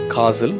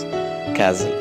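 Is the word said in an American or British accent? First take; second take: British; American. First: The word is said in a British accent. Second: The word is said in an American accent. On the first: "In British accent" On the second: "whereas in American accent"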